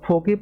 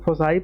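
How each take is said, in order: First: It has a k sound and ends in 'ee'. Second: It has an s sound and ends in 'eye'. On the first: Some people say it this way. "कुछ लोग फोकी पढ़ते हैं" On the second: This is the dictionary pronunciation to use. "कुछ लोग फोसाई पढ़ते हैं, लेकिन आप फोसाई पढ़िए"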